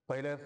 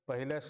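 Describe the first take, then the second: No difference in how they are said.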